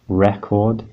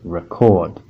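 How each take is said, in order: First: The stress falls on the first syllable. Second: The stress falls on the second syllable. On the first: It is a noun: a disc you play. "stress on the first syllable, re" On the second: It is a verb: to capture sound or video. "stress on the second syllable, chord"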